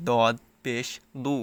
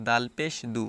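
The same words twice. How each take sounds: First: দদ and দু with a full, dark d, slowly; slow thickened d in দদ; thick, heavy d. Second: দাল and দু with a thin plain d; ordinary d in দাল; normal, light d. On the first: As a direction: say দদ পেশ দু heavily and drawn out. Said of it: "একটু মোটা করে পড়তে হবে". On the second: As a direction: say দাল পেশ দু lightly, unthickened. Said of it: "normal". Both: Shown as a demonstration.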